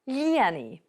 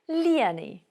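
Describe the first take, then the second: First: The slender L is plain, without lenition. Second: The slender L is softened, with lenition. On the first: It is a command to fill something. "the command" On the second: It says someone filled something in the past. "She filled in the past tense with lenition"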